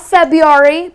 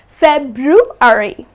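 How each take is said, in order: First: The R after the B is dropped. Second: The R after the B is pronounced. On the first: The speaker calls it wrong. "Please do not drop the R. It's not February" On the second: The speaker calls it right. "but it is February"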